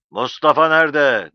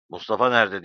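First: Loud, raised-pitch roar; roaring demand. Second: Relaxed, smiling enquiry; smiling question. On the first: İsmail Ağa to silent Zero once his smile freezes, roaring. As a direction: roar the question, demanding an answer. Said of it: "diye kükrer gibi konuştu". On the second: İsmail Ağa asking Zero after his face softens, smiling. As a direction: ask it with a smile. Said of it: "diye sordu gülümseyerek". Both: A narrator's reading.

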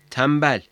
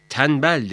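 First: "tembel" with m before the b; assimilated M sound. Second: "Tembel" with n in place of m; wrong N sound. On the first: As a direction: say "tembel" with lips closed on m. ("tembel", m sesiyle) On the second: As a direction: say "Tembel" as tenbel. ("Tembel", m yerine n ile) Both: Shown as a demonstration. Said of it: "Tembel değil, tembel".

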